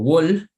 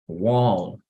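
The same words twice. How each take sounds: First: The L is a light, Spanish-style L. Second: The L is thick, tongue spread on the palate. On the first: The speaker calls it wrong. "No digo wall" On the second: The speaker calls it right. "sino wall"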